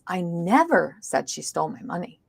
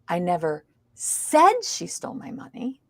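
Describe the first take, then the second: First: The stress is on the word never. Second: The stress is on the word said. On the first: The speaker denies saying it at all. "Now we've stressed the word never" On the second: It may have been implied, not said. "It means I didn't say it. I might have implied it"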